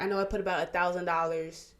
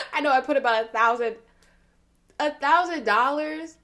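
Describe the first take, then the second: First: Said in the usual way. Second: Louder, higher mocking disbelief, slowing on thousand; incredulous mock. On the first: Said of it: "she was like". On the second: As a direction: repeat it like it's ridiculous. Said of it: "I started laughing at that".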